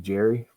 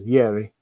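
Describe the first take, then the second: First: The name is said with a Canadian pronunciation. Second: The name is said with a Finnish pronunciation. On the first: "the Canadian pronunciation would be Jerry" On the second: "the Finnish is Yeri or something"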